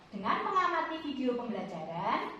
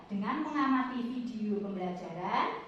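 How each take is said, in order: No difference in how they are said.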